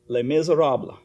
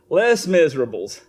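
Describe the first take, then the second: First: It is said with French pronunciation. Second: It is said as English 'less miserables'. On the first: It names the French novel and play. "But I won't even be pronouncing that way" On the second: It means having fewer things that cause misery. "I'm going to say it this way"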